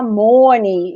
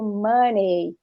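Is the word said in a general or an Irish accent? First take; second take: Irish; general. First: It is said in an Irish accent, closed O. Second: It is said in a general, non-Irish accent.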